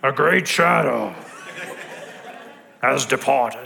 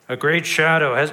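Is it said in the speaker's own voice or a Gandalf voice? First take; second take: Gandalf voice; own voice. First: It is said in an imitated Gandalf voice. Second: It is said in the speaker's normal voice.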